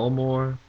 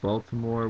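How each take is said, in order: First: It is said with a local Maryland accent. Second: It is said with a standard American accent. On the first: "Baltimore instead of Baltimore" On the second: "instead of Baltimore"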